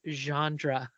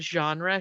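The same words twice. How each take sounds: First: The word is pronounced oddly, like a woman's name. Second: The word has its usual standard pronunciation. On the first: The speaker calls it wrong. "she used to say genre" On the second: The speaker calls it right. "instead of saying genre"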